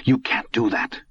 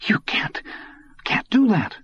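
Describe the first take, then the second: First: Stunned disbelief. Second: Breathless start, then a high cracking cry; the words break out higher as panic rises; boy stunned into a cracked high plea; stunned, breaking disbelief. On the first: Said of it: "in a stunned and unbelieving voice". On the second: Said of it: "stunned and unbelieving voice". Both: A narrator's reading.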